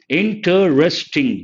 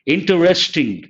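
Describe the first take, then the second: First: "interesting" slowly broken into four beats, in-te-res-ting; slow, counted-out "interesting", each of four syllables separate; split into syllables. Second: Said in the usual way. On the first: Shown as a demonstration. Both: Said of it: "there are four syllables".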